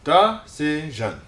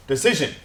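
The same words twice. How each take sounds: First: Decision slowly as duh - si - zhun; syllable by syllable. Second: Said in the usual way. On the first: Shown as a demonstration. Teacher breaks the word up for students, Decision in slow syllables. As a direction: space Decision into three beats. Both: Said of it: "break them up into syllables".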